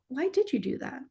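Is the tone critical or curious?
curious. It is said in a gentle, curious tone. The person is invited to explore the reason. The speaker calls it right. "change that tone to"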